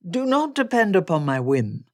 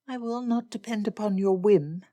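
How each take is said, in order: First: Loud, emphatic gentleman's reply; Darcy insistent. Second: Higher-pitched firm refusal; Elizabeth refusing. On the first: Darcy answers Elizabeth's doubt, loud and insistent. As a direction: turn her refusal round with force. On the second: Elizabeth refuses to rely on Darcy, higher and firm. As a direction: refuse him in a raised woman's voice. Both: Acted.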